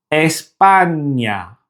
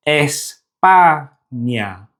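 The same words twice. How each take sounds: First: Said in the usual way. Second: España broken as es, pa, nya with gaps; syllable by syllable. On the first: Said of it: "other Spanish words containing the ñ". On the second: Shown as a demonstration. Teacher showing Spanish words with ñ, syllable by syllable. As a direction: say España in three slow pieces, ñ starting the last.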